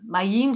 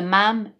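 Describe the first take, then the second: First: The name is said with two vowel sounds. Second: The name is said with one vowel sound. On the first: "On dit maïm" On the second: "Il y en a qui disent le mam"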